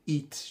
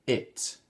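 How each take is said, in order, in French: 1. La voyelle est un son 'ee' tendu. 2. La voyelle est un son 'ih' court et relâché. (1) "c'est pas prononcé it" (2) "Le premier, c'est le mot it"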